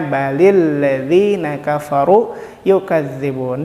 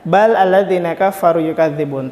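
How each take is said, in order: First: Bal takes an added i, linking into ladzina. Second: Bal ends in a bare l, with no added vowel. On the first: This is how the words are actually read aloud. The speaker calls it right. "dibacanya balil ladzina kafaru yukadzibun" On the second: This is the underlying original form of the words. The speaker calls it wrong.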